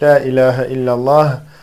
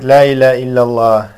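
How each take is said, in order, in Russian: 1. Каждый слог фразы произносится полностью. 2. Некоторые звуки фразы пропускаются или искажаются. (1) "нужно ему произнести правильно" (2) "не могут сразу правильно произнести"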